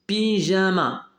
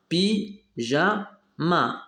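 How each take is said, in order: First: Said in the usual way. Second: "pyjama" very slowly as py, ja, ma; three detached beats on "pyjama", a pause after each; split into syllables. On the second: Shown as a demonstration. Teacher showing trois syllabes, syllable by syllable. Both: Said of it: "Trois syllabes".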